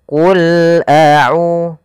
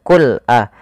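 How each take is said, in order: First: Qul runs straight into a without a break. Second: There is a break between qul and a. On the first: The speaker calls it right. "Tapi dia qul a'u" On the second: The speaker calls it wrong. "Hati-hati jangan putus, jangan qul a"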